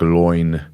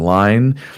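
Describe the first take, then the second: First: The vowel sounds like 'oy'. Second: The vowel sounds like 'eye'. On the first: This is how the word was once said. "similar to sort of a sound like loin" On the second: This is how the word is said today. "instead of being line"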